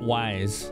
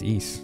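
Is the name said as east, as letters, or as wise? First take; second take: wise; east. First: The name sounds like the word wise. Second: The name sounds like the word east. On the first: The speaker calls it wrong. "I called it Wise as a kid" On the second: The speaker calls it right. "it's East"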